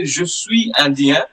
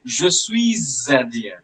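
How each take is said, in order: First: "Je suis Indien" with suis's S silent, no link; without liaison. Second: "Je suis Indien" linking a Z sound from suis into Indien; with liaison. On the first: Teacher shows the form without liaison, slowly. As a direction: say "suis" then "Indien" apart, no S sound. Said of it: "You can pronounce it both ways". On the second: Teacher shows the liaison form, slowly. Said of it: "The last S of the word suis ... we can connect". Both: Shown as a demonstration.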